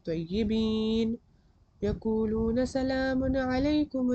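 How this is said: There is a pause right after tayyibin. The speaker calls it wrong. "मैं तय्यिबीन पे पॉज ले रही हूँ"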